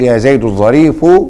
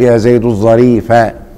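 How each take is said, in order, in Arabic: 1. تنتهي الكلمة الأخيرة بالحركة 'u'. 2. تنتهي الكلمة الأخيرة بالحركة 'a'. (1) "والظريف نعت مرفوع تبعا لإيه؟ للفظ زيد" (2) "تبقى الظريفة نعت منصوب تبعا لمحل إيه؟ زيد"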